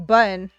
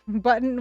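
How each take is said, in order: First: The middle t becomes a glottal stop. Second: The middle t is pronounced as a clear t.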